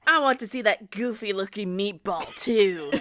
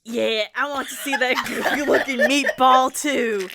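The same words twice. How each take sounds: First: A different British-lad voice for John. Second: Line broken by laughter; laughing through the line. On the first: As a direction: read it as John, a young bloke. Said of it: "Your John voice changed". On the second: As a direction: crack up mid-line. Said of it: "Sorry, repeat that line for me". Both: A narrator's reading.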